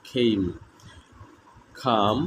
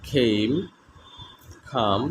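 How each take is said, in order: The two takes are said the same way.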